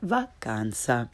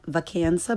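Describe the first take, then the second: First: "vacanza" with open ah, lower; correct Italian pronunciation. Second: "vacanza" with English can in the middle; learner's mispronunciation. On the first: Teacher corrects beginners, "vacanza" with Italian ah. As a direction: say "vacanza" as vah-KAHN-tsah. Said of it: "follow it with the correct pronunciation". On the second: Teacher shows beginners' mistake, "vacanza" with English short a. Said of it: "first the way most people". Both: Shown as a demonstration.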